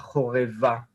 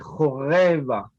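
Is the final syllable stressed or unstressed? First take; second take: stressed; unstressed. First: The final syllable is stressed. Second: The final syllable is unstressed. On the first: The speaker calls it wrong. "et non pas choreva" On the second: The speaker calls it right. "c'est un A qui est non accentué. On dit choreva"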